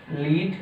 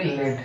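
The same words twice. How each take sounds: First: लीड with a long ee, leed; teacher gives लीड as leed, the metal-free reading. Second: लेड with a short e, led; teacher gives लेड as led, like the metal. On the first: Teacher to class, pronouncing लीड as leed. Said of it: "इसको हम पढ़ते हैं". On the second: Teacher to class, pronouncing लेड as led. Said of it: "एक को पढ़ेंगे लेड". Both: Shown as a demonstration.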